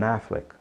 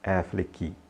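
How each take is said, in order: First: The name ends cleanly on the k sound. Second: An extra vowel sound follows the final k. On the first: The speaker calls it right. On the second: The speaker calls it wrong.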